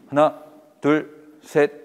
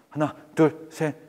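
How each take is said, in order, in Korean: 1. 일정한 보통 속도로 세요. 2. 아주 빠르게 세요. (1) "요 속도예요" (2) "너무 빨라"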